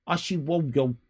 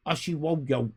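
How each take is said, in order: Both takes have the same delivery.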